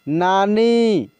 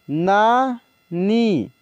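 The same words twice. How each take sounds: First: Said in the usual way. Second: नानी drawn out very slowly, sound by sound; slow dictation of नानी; slow spelled-out reading. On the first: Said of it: "teacher says word normally". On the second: Shown as a demonstration. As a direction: stretch नानी for the class. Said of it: "teacher reads word slowly".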